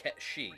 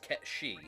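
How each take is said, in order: First: The name is said like 'Ketshi'. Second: The same.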